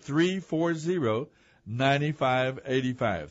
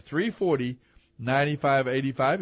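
First: Slow the number down so listeners can write it; slow, spelled-out digits. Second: Said in the usual way. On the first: Shown as a demonstration. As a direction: read each digit slowly and clearly. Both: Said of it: "you can give us a call".

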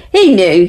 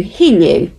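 First: HE punched loud; he said with weight; stress on he. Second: He stressed, falling. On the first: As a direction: lean hard on he. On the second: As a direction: repeat it, hitting He. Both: Real, not acted.

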